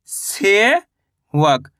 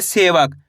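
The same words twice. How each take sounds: First: सेवक split as से, pause, वक; very slow सेवक with a stretched से; sounded-out word. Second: Said in the usual way. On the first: Shown as a demonstration. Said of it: "इस तरीके से शब्द का उच्चारण करोगे". (सेवक को से... वक तोड़कर बोलना) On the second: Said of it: "शब्द का उच्चारण सही से सुनना है".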